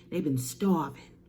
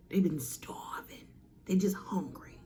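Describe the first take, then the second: First: Said in the usual way. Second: Hushed dramatic whisper. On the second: Acted. Whispering to the audience about starving Titans. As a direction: drop to a breathy hush for effect.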